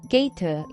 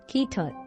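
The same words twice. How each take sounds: First: The vowel is a gliding 'ay' sound. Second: The vowel is a short lax 'e' sound. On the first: This is the standard pronunciation. "gate 이렇게 발음해야 되는 것을" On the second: This is a regional merger toward the lax vowel. "A 이 전설 모음이 이제 Lex-E처럼 뭐 gate 이런 식으로 발음되겠죠"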